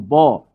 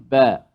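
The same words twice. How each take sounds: First: The ba sound is heavy and thick. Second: The ba sound is light and thin. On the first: The speaker calls it wrong. "bukan ba" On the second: The speaker calls it right. "Nipis ... tapi ba"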